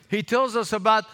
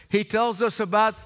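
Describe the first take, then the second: The two takes are said the same way.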